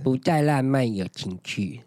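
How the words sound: It is said in a sweet, cutesy tone. Everything is fine between the couple. "都是那种偏耳音啊"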